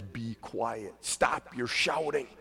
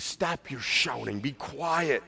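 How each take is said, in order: First: Stern. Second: Quiet commanding authority; calm stern command to a demon. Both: Retold or imitated. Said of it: "He said sternly".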